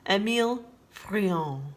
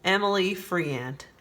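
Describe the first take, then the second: First: The name is pronounced the French way. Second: The name is pronounced the American way. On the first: "French painter" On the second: "as we Americans say"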